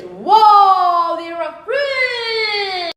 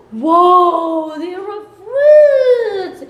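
First: Amazed shout. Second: Big drawn-out whoa, much louder and higher; amazed shout. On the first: Repeats amazement. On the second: Teacher shows the kids the fruit basket, amazed loud shout. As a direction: gasp it out like a wonder for kids. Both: Acted.

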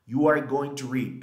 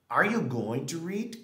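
First: Said in the usual way. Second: "Are you going to read?" higher, louder, rising on you; question intonation. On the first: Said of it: "En pregunta". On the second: Shown as a demonstration. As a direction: ask it with a lifted question tune. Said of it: "dale la entonación a la pregunta". (entonación de pregunta, sube en "you")

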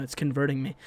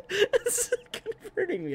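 First: Said in the usual way. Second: Slow, high, laughing. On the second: Real, not acted. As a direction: stretch it out through laughter.

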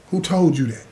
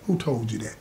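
First: Said in the usual way. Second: Quiet challenge. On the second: Retold or imitated.

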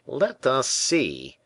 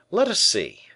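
First: Slow, drawn-out doubting tone; a tailor who doesn't believe a word; the tailor, slowly incredulous. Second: Higher, louder, alert and keen; the attentive musketeer, eager and alert. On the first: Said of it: "said Percerin incredulously". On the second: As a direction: sharpen up for the coming battle. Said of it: "said the attentive musketeer". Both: A narrator's reading.

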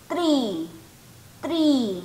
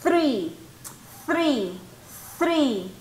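First: Tree said with a plain t and tapped r, no th; wrong tree sound. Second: Three with the tongue brushing the upper teeth; correct th sound. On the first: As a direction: mimic the learner's Tree. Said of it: "Muchos de ustedes ahí están diciendo". (pronunciación incorrecta: Tree con t) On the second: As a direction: show the soft th in Three. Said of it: "los dientitos de arriba, pasan rozando su lengua". (three con la lengua entre los dientes) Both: Shown as a demonstration.

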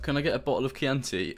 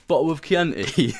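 First: Said in the usual way. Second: Put-on slow, questioning English accent on Chianti. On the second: Waiter mocking Aussie accent, in English accent. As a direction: echo it back like a posh English waiter. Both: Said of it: "in an English accent".

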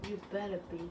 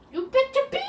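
First: Said in the usual way. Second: Higher and louder, a playful yell; mock yell. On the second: Gamer yells a playful threat at his viewers. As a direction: bark it at the viewers in fun.

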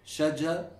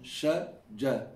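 First: "shajar" with an English sh and front J; English-style pronunciation. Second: Slow, separated "shajar" with J further back; correct Arabic pronunciation. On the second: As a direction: stretch "shajar" in careful Arabic. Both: Shown as a demonstration. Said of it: "You hear the difference between".

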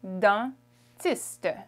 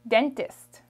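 First: "dentiste" in French, nasal first vowel, syllables apart; French pronunciation. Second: Said in the usual way. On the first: Shown as a demonstration. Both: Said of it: "Dentist in French is".

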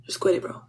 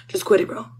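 First: "Just quit it, bro." breathed in a voiceless whisper. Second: Said in the usual way. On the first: Acted. Speaker hushes the arguing food in a whisper. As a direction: hush it, no voice at all.

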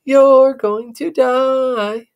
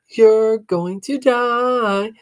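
First: Slow, louder teasing chant; louder sing-song taunt. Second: Slow, drawn-out teasing chant; sing-song taunt. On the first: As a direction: lean into the taunt harder. Sister taunts again. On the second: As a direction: taunt it like a playground rhyme. Sister taunts brother. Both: Acted.

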